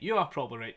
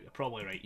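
First: "are" stressed, then falling; uncontracted "are" punched, conceding the point. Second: Said in the usual way. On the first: Real, not acted. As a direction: lean on the word "are". Repeats with the verb emphasised.

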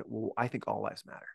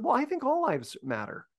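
First: "Well, I think all lives matter" low, softer and pointed; mild mock of a confrontational jab; hostile retort. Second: "Well, I think all lives matter" much higher, light and guileless; innocent, naive friend. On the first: Someone getting in your face to counter a slogan, low and pointed. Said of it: "they get in your face and they say". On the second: Retold or imitated. Well-meaning friend innocently voicing an opinion, pitched high. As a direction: say it wide-eyed, meaning no harm. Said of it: "just an innocent, good heart, not super informed".

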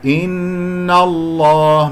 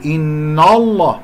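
First: إن الله chanted slowly, long hum on a thin N; correct light noon. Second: إن الله with the noon thickened like the lam; wrong heavy noon. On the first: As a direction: hold the N of إن الله light, then a heavy L. (ترتيل «إن الله» بنون مرققة) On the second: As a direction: darken the N in إن الله. (نطق خاطئ لـ«إن الله» بتفخيم النون) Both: Shown as a demonstration. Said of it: "من غير أن أفخم النون".

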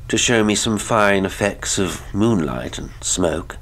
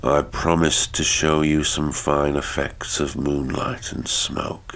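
First: Higher-pitched, lively, eager-sounding request; uneasy lover. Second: Colourless voice. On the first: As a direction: lift the pitch and keep it moving. Lover's line, echoed colourlessly by husband. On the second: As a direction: repeat it without any expression. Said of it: "repeated Horrocks in a colourless voice". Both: A narrator's reading.

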